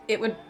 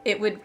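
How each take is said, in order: Both takes have the same delivery.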